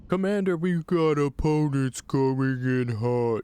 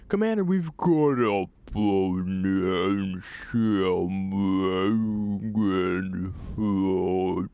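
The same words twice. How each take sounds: First: It is said at a moderately slow pace. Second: It is said at a very slow, dragged pace.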